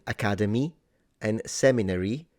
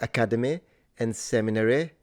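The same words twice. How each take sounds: First: The final y vowels sound modern. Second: The final y vowels sound old-fashioned. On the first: "like I would say it" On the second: "he says academy and seminary"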